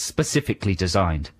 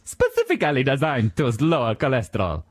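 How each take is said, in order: First: Said in the usual way. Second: Mock-Italian slogan reading; Italian accent. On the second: Quoting the cereal box as the chef, Italian accent. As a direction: imitate the Italian chef's sales line. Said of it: "the way he says specifically".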